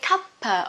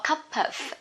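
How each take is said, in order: First: The two words are linked into one. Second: The two words are said separately.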